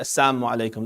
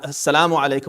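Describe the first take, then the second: First: The L sound in salamu is dropped. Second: The L sound in salamu is clearly pronounced. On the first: Death be upon you. "leaving the lam out" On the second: Peace be upon you. "with a lam"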